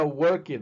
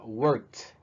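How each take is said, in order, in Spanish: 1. La terminación es una sílaba extra, como 'id'. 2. La terminación es un solo sonido T. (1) "No sería work it" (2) "Ya sería worked"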